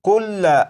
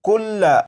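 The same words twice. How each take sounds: First: The word ends with a short vowel after 'l'. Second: The same.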